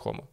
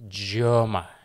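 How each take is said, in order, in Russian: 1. Название произносится по-испански. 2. Название произносится по-американски. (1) "В Испании преимущественно все говорят Хома" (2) "Все американские обзоры"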